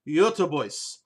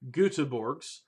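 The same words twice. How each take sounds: First: The name is said with attempted Swedish sounds. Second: The name is said with German-style vowels. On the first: "the appropriate pronunciation, and I'm going to butcher the hell out of this" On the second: "the guy who took a little bit of German in high school"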